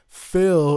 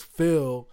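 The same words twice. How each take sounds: First: "Phil" shouted louder; calling out. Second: Said in the usual way. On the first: Real, not acted. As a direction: call out "Phil" to him. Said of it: "if you're listening". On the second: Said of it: "repeated call".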